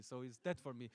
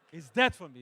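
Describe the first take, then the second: First: Said in the usual way. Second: Loud, emphatic repeat; shouted. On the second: Acted. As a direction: bellow the words out. Deadpan then shouted repeat.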